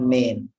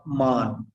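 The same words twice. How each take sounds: First: "man" said as "men"; wrong vowel. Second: "man" with an AH vowel, "mahn"; wrong vowel. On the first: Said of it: "this is not man". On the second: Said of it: "not man". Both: Shown as a demonstration.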